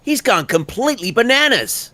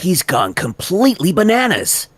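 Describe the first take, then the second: First: High, exclaiming read; high take. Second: High, emphatic take; first take. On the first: Actor offers line variations, high take. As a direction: toss it up high in disbelief. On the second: Actor offers line variations, higher take. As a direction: push the line up and out. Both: Shown as a demonstration. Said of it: "I'll give you a few of those".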